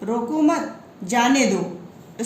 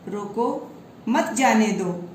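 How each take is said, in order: First: There is a pause right after 'mat'. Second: There is a pause right after 'roko'. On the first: "रोको मत के बाद comma लगा दिया गया है" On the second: "रोको के बाद अल्प विराम यानी कॉमा लगा दिया गया है"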